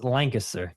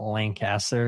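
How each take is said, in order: First: Lancaster as LANG-kuh-ster; Lancaster with reduced middle. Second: Slow Lancaster as LAN-CASS-ter; Lancaster with full "cas". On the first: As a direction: swallow the middle vowel of Lancaster. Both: Shown as a demonstration. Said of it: "not Lancaster".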